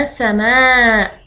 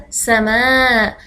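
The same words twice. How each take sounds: First: Said in the usual way. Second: سماء stretched out slowly and clearly; slow model word for children; slow demo word. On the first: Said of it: "كلمة كأس فيها سين". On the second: Shown as a demonstration. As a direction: say سماء slowly, lingering on each sound. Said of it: "س-، س-،".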